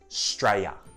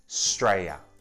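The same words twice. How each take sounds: Both takes have the same delivery.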